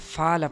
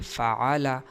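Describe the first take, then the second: First: The throat consonant becomes a long vowel. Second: The throat consonant is clearly pronounced. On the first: The speaker calls it wrong. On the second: The speaker calls it right.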